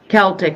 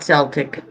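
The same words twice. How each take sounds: First: The word begins with a hard K sound. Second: The word begins with a soft S sound. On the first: The speaker calls it right. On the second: The speaker calls it wrong. "not Celtic. You're thinking basketball"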